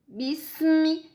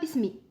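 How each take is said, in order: First: The s sound is held and flows on. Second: The s sound is swallowed and cut short. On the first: The speaker calls it right. "Laisse couler le son" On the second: The speaker calls it wrong. "Ne dis pas bismi. Hein, n'avale pas ici"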